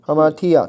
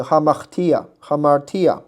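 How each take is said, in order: First: Said in the usual way. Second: Hamartia with a tapped r in the middle. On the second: Shown as a demonstration. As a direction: flick the tongue once on the r of Hamartia, slowly. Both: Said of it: "如果你要发弹音的话".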